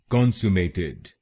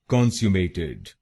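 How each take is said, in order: First: It is said in an American accent. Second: It is said in a British accent.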